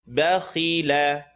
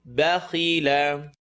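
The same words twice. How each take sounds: No difference in how they are said.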